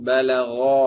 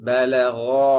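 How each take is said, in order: No difference in how they are said.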